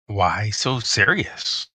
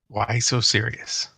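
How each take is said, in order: First: It is said slowly, dragged out. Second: It is said at a normal pace.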